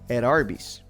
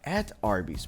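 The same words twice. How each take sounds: First: The T in 'at' is a quick D. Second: The T in 'at' is a clear T. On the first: "The T sound morphed into a quick D sound" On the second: "what you hear is not at Arby's"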